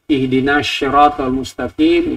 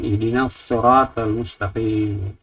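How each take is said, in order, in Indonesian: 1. Kata sirat diawali dengan bunyi sh. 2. Kata sirat diawali dengan s emfatik. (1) "ihdina syira pakai shin"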